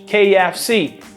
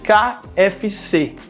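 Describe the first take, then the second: First: The letters are spoken with English letter names. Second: The letters are spoken with Portuguese letter names. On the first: The speaker calls it right. "we say that in English" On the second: The speaker calls it wrong. "just translate those letters"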